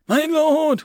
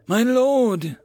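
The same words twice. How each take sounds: First: Alarmed call. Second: Desperate plea. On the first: Commander rides up, alarmed. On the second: Commander drops to his knees. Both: A narrator's reading.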